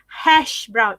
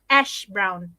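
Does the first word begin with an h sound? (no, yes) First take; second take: yes; no. First: The first word starts with an h sound. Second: The first word starts without an h sound. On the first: The speaker calls it right. "You pronounce hash brown" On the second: The speaker calls it wrong. "it's not ash brown"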